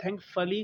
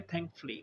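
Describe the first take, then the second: First: Thankfully as thank-fuh-lee, middle syllable clear; full form. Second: Thankfully as thank-flee; schwa dropped. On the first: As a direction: keep the vowel after f in thankfully. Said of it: "को हमने कर दिया". (thankfully तीन syllable में: थैंक-फ-ली) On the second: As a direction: join f and l in thankfully, no vowel between. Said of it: "हमने कर दिया". (thankfully दो सिलेबल में: थैंक-फ्ली) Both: Shown as a demonstration.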